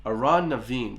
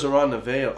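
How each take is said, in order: First: Amhrán na bhFiann said as "ow-rawn na veen"; Irish title pronounced his way. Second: Amhrán na bhFiann with bhFiann as "vail"; Amhrán na bhFiann ending on "vail" not "veen"; old mistaken pronunciation. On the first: Shown as a demonstration. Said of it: "That's how I pronounce it". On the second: Retold or imitated. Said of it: "I thought it was".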